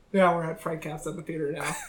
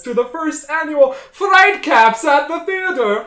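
First: Said in the usual way. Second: High, loud spooky host delivery; jack o lantern voice. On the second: Acted. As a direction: boom the show title like a ghoul.

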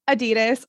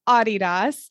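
First: "Adidas" stressed on the middle syllable, DEE; American pronunciation. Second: "Adidas" stressed on an open first AH; European pronunciation. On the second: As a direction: say "Adidas" as AH-dee-dahs. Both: Shown as a demonstration. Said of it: "It's like Adidas and Adidas".

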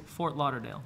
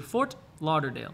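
First: "Fort Lauderdale" with the T of Fort dropped; native-style "Fort Lauderdale", For-Lauderdale run together; gringo pronunciation. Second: "Fort Lauderdale" with the T of Fort pronounced; formal "Fort Lauderdale", T kept; careful T. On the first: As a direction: say "Fort Lauderdale" like an American, swallowing the T. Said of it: "un gringo va a decir". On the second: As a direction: say "Fort Lauderdale" sounding the T before the L. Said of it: "Podrías decir Fort Lauderdale". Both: Shown as a demonstration.

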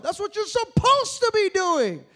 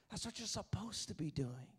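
First: Slow, loud climactic refrain; That's what you're supposed to be doing, loud and slow; loud preaching refrain. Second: The refrain dropped soft and low; That's what you're supposed to be doing, soft and low; soft preached refrain. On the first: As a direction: hammer the line home at the peak. Refrain at sermon peak. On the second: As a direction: bring it down to a hush. Refrain repeated softly after peak. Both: Acted.

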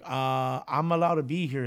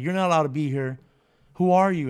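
First: Said in the usual way. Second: Raised voice, imitating a guard; acted-out challenge, getting louder; stern guard. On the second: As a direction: order off an intruder, mock-stern. Guard rebukes intruder in retold story.

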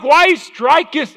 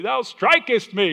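First: Mock old English. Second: Very high, slow King James voice; hammed-up biblical complaint, much higher and slower; mock old English. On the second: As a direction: ham up the archaic "Thou strikest me". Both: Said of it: "the way the old English could say it".

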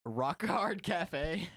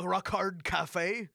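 First: "Rock hard cafe" drawn out slowly, higher; very slow echo of "Rock hard cafe". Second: "rock hard cafe" said slowly, each word weighted; slow drawn-out "rock hard cafe". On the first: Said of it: "repeating the joke". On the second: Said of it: "wordplay on the name". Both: Shown as a demonstration.

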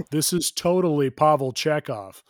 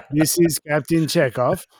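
First: Said in the usual way. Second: Hammed-up wrong attempt at a Russian accent; mock Russian captain accent; botched Russian accent. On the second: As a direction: announce yourself in a badly faked Russian accent. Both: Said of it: "Oh, wrong accent".

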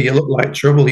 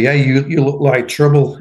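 First: Said in the usual way. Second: Laughing. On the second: Retold or imitated. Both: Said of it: "they said to me".

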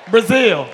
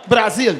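First: Loud Brazil said the English way, "bruh-ZIL"; English pronunciation. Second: Loud Brazilian-accented Brazil, "Brah-ZEEL"; native Brazilian pronunciation. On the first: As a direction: say Brazil with a reduced first vowel, "bruh-ZIL". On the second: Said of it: "Get some culture in your life". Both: Shown as a demonstration.

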